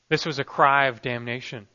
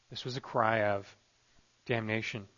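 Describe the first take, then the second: First: Said in the usual way. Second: Much softer, lower, with a pause before damnation; a grave near-whisper on damnation; hushed repeat. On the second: Shown as a demonstration. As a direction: let it sink in, quietly. Preacher repeats key phrase hushed.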